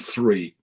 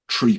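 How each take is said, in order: First: The word begins with a th sound. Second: The word begins with a plain t sound. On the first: "rather than three" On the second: "they will tend to order tree pints"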